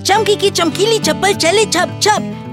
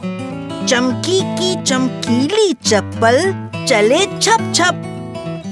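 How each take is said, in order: First: The phrase is spoken quickly and hurriedly. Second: The phrase is spoken slowly and carefully. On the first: "तीन बार जल्दी जल्दी बोला है" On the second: "पहले एक बारी धीरे धीरे बोलते हैं"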